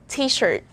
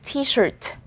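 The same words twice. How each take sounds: First: The final T is stopped without release. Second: The final T is released with a pop. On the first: The speaker calls it right. "is a stop T" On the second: The speaker calls it wrong. "I don't say t-shirt"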